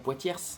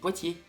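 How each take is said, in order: First: The final consonant is pronounced. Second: The final consonant is silent. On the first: The speaker calls it wrong. "On dit pas Poitiers" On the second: The speaker calls it right. "on dit Poitiers. Il y a des lettres qui sont muettes"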